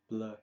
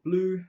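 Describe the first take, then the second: First: It is said with a French vowel sound. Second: It sounds like the English word blue. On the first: The speaker calls it right. "it is a French word, so bleu is how you would say it" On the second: The speaker calls it wrong. "Some people pronounce it bleu, which is what it means in French"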